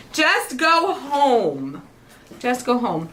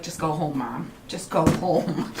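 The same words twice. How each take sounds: First: Very slow, dragged-out just go home; drawn-out plea. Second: Put-on exasperated kids. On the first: Retold or imitated. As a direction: stretch it like a weary kid. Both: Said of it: "they're like".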